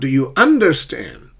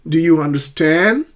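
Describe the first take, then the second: First: The stress falls on the first syllable 'un'. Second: The stress falls on the final syllable 'stand'. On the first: The speaker calls it wrong. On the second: The speaker calls it right. "compound verbs is the second syllable"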